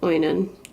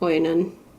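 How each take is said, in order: First: The name starts with an oy sound. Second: The name starts with an oy sound.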